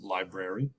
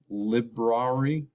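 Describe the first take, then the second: First: The first vowel is a long i sound. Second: The first vowel is a short i sound. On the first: "But we pronounce it library" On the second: "That should be a short I, right? With phonics"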